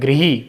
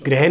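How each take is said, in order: First: The first syllable is pronounced 'grih'. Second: The first syllable is pronounced 'grah'. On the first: The speaker calls it right. "इसका शुद्ध उच्चारण होता है गृही" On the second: The speaker calls it wrong. "ग्रह नहीं होता"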